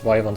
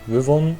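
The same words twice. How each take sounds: First: The word is pronounced the English way. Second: The word is pronounced the German way. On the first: "in English it's Wyvern" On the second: "in Germany the correct pronunciation is Wyvern"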